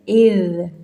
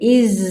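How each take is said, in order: First: It ends with a soft th-like sound. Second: It ends with a buzzing z sound. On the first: The speaker calls it right. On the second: The speaker calls it wrong.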